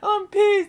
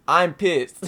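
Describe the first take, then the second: First: Much higher, louder fake whining cry on "I'm pissed"; hammed-up sob, much higher pitch; mock crying. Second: Louder, half-joking angry "I'm pissed"; mock outburst, louder; mock anger. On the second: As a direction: play up being furious, louder. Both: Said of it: "I'm not really mad".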